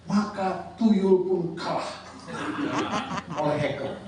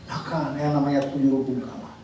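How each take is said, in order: First: Laughing. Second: Said in the usual way. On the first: Real, not acted. Joke about hackers beating tuyul.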